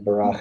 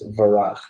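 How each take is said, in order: First: The word begins with a B sound. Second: The word begins with a V sound. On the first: "instead of barach" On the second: "it's varach"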